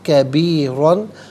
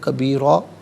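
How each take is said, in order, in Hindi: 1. यह शब्द नून की आवाज़ पर ख़त्म होता है। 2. यह शब्द लंबी आ की आवाज़ पर ख़त्म होता है।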